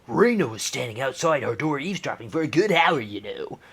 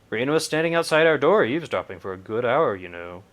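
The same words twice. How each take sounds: First: It is said in a different, put-on voice. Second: It is said in the speaker's usual voice.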